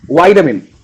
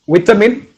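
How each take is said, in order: First: The first syllable has a long 'eye' vowel. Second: The first syllable has a short 'i' vowel. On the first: The speaker calls it right. "its actual pronunciation pronunciation is vitamin" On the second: The speaker calls it wrong. "I would pronounce it as it's vitamin"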